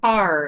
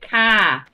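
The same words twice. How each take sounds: First: The word is pronounced in a standard, clear way. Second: The word is pronounced with a deaf-sounding accent. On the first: The speaker calls it right. "So I'd say" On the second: The speaker calls it wrong. "that was her deaf accent"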